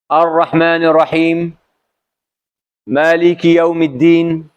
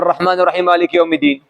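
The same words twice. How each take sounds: First: A clear pause separates the two verses. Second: The two verses run together without a pause. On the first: Each verse is read as its own complete unit. The speaker calls it right. "stopping, uh, full stop" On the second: The verses are rushed together as one. The speaker calls it wrong. "never read the two ayah together... No, never like this one"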